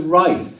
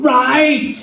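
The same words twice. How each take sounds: First: Said in the usual way. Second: High-pitched mock yell; retold scream. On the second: Falling Alan screams back at God, imitated high yell. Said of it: "I just screamed out".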